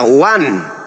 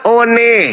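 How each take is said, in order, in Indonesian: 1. Diucapkan seperti bahasa Inggris, seperti 'wan'. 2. Dibaca huruf demi huruf, sesuai ejaannya. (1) "Harus kembali kepada pemilik bahasa" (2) "Anda membahasakan one, one nggak boleh"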